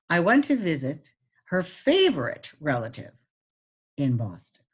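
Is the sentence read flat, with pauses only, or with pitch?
pitch. It is read with pauses and marked pitch changes. "And now I'm going to add pitch"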